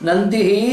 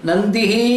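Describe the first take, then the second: Both takes have the same delivery.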